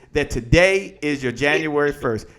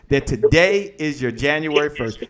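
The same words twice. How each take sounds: The two takes are said the same way.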